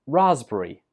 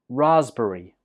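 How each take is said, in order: Both takes have the same delivery.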